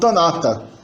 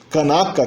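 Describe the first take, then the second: First: The stops in the word are pronounced as t. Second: The stops in the word are pronounced as k. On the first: "pode ser pronunciado também como tanata" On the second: "o K e o T podem se alternar"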